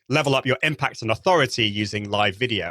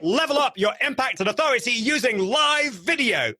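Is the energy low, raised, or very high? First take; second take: low; very high. First: It is said with low, conversational energy. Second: It is said with very high, over-the-top energy.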